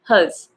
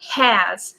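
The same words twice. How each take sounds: First: The vowel is reduced to a schwa. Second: The vowel is a full, open vowel. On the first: "you can pronounce it as schwa" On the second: "you can pronounce it has"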